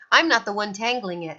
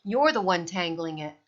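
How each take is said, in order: First: Bellowing. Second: Said in the usual way. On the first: A narrator's reading. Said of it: "Halvor bellowed".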